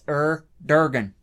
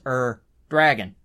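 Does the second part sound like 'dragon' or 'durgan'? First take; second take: durgan; dragon. First: The second part is said as 'durgan'. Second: The second part is said as 'dragon'. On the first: The speaker calls it wrong. "you're taking the R A and you're replacing it with the er" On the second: The speaker calls it right. "proper pronunciation"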